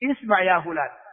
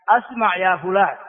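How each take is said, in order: First: The first word starts with a connecting 'i' sound. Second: The first word starts with a glottal stop and 'a'. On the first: The speaker calls it right. "إنما الصواب ما هو؟" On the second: The speaker calls it wrong. "هذا لحن"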